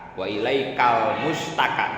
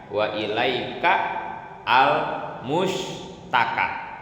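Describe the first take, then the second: First: The words are said linked together smoothly. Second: The words are said separately, broken apart.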